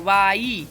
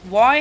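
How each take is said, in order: First: The word begins with a v sound. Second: The word begins with a w sound. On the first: The speaker calls it wrong. "इसको भी लोग वाई बोलते हैं" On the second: The speaker calls it right. "तो ये वॉय है"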